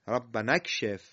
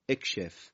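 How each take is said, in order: First: "ربنا اکشف" linked as rabbana-kshef, in an easy voice; joined recitation. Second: "اکشف" alone as ekshef, low and soft; hamza with kasra. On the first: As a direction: glide from "ربنا" into "اکشف" without a hamza. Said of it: "ربنا رسیده به کلمهٔ چی؟". (وصل «ربنا اکشف» بدون همزه) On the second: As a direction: quietly start "اکشف" on a short e/i. («اکشف» آهسته، با همزهٔ مکسور) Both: Shown as a demonstration.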